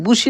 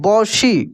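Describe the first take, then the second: First: The first vowel sounds like 'oo'. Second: The first vowel sounds like 'aw'. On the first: The speaker calls it wrong. "बुशी नहीं पढ़ेंगे" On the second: The speaker calls it right. "क्या पढ़ेंगे, बौशी"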